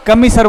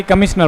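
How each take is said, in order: First: कमिसर said as "ka-mi-sar", plain s and no n; कमिसर clearly as ka-mi-sar, with no shna sound; correct pronunciation. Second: कमिश्नर said as "ka-mish-nar", with an n like commissioner; कमिश्नर with a shna sound, the wrong way; wrong pronunciation. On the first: (कमिसर का सही उच्चारण, "क-मि-सर") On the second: (कमिश्नर का गलत उच्चारण, "क-मिश-नर") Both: Shown as a demonstration. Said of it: "ना कि कमिश्नर बोलते हैं".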